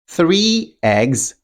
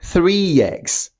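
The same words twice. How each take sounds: First: The two words are said separately. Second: The two words are joined by a glide. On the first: "three eggs will sound like" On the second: "This sound can be used to connect speech"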